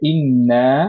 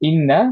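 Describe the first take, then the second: First: The final vowel is drawn out long. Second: The final vowel is short. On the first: It means indeed we. "মাদ সহ" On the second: It means indeed. "মাদ ছাড়া"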